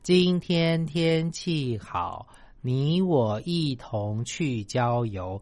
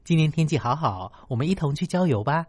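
First: It is read flatly, word by word. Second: It is said warmly with lively feeling.

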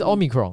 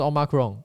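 First: The stress is on the first syllable. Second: The stress is on the middle syllable.

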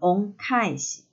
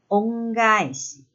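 First: The second part begins with a voiceless ka sound. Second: The second part begins with a voiced ga sound. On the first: The speaker calls it wrong. "而不是念成恩返し" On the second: The speaker calls it right. "返し的第一个字的发音要从清音的か变成了浊音的が，所以正确发音是恩返し"

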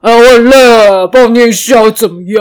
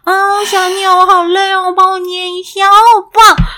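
First: It is said in a plain, blunt voice. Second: It is said in a sweet, cutesy voice.

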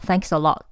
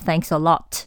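First: The final T of 'lot' stops in the throat. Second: The final T of 'lot' is clearly released. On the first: The speaker calls it right. "Lot 的T 没有发出来，而是在喉咙打住" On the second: The speaker calls it wrong. "我们不说Thanks a lot"

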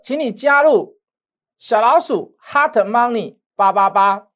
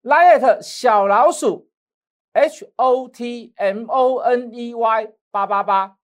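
First: It is said at a normal speed. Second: It is said slowly, spelled letter by letter.

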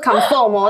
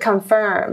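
First: The second syllable sounds like 'form'. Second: The second syllable sounds like 'firm'. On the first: The speaker calls it wrong. "它不是 confirm" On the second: The speaker calls it right. "是 confirm"

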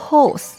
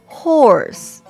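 First: It is said in a British accent. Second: It is said in an American accent. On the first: "horse 是英国的发音" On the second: "horse 是美国的发音"

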